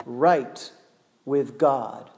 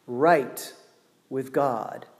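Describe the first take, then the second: No difference in how they are said.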